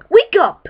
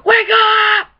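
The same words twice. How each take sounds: First: Said in the usual way. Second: Shout. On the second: Acted. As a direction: yell it to wake everyone. Yelling at sleeping people.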